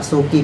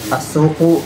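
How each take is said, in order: First: The word ends in an i vowel. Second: The word ends in a u vowel. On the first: "Kenapa dibaca asuki?" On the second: "atau dibaca uh, asuk, asuku?"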